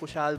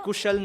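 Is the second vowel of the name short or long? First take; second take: long; short. First: The second vowel is long. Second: The second vowel is short. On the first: Someone else mispronounced the name this way. The speaker calls it wrong. "समय भाई ने कुशाल बोल दिया एक बार" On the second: This is the name's actual pronunciation. The speaker calls it right. "कुशल नाम है"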